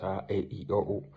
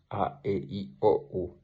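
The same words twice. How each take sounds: First: A, E, I, O, U each held long, Latin long vowels; long largas: A, E, I, O, U. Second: A, E, I, O, U each said short, Latin short vowels; brief breves: A, E, I, O, U. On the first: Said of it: "y cinco largas". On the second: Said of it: "cinco breves". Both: Shown as a demonstration.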